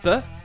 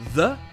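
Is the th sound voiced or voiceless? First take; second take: voiceless; voiced. First: The th sound is hissing and voiceless. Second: The th sound is buzzing and voiced. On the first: "qui se rapproche du son s" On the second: "qui se rapproche du son the"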